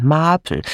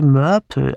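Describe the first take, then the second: First: "Marple" with an open ah vowel; "Marple" said with a clear ah; corrected name. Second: "Murple" with an er-like first vowel; tentative "Murple", first vowel like "her"; mistaken name. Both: Acted. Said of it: "äh, nein, Marple".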